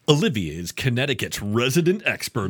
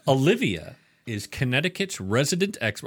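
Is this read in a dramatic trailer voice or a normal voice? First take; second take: dramatic trailer; normal. First: It is read in a dramatic movie-trailer voice. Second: It is read in an ordinary speaking voice.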